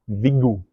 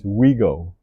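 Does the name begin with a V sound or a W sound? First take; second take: V sound; W sound. First: The name begins with a V sound. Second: The name begins with a W sound. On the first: The speaker calls it right. "with the V" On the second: The speaker calls it wrong. "because I pronounce it wrong"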